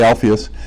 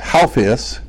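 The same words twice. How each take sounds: First: The name begins with a plain vowel sound. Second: The name begins with a breathy h sound. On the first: "but we say" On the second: "it's a aspirated A"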